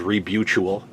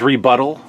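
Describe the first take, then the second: First: It is said as 'rebutual', with a changed ending. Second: It is said as 'rebuttal', the usual form. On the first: The speaker calls it wrong. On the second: The speaker calls it right.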